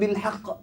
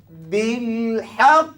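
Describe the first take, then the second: First: The final sound is quick and cut short. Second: The final sound is slow and drawn out. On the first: The speaker calls it wrong. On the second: The speaker calls it right. "Kan ketika qalqalah akbar dia lambat"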